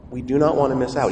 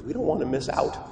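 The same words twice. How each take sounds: First: "do not" said as two separate, firm words; emphatic restatement. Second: Said in the usual way. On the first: Real, not acted. Preacher urging the congregation to answer God, stressing "do not".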